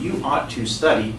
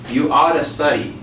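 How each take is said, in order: First: Both words of 'ought to' are said fully. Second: 'Ought to' is reduced to one run-together word. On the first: "very properly" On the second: "they will say it like this"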